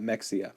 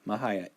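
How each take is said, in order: First: The middle consonant sounds like 'ks'. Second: The middle consonant sounds like 'h'. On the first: The speaker calls it wrong. "I did mispronounce her name. ... not Mexia" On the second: The speaker calls it right. "It says right here, Ines Mahaya"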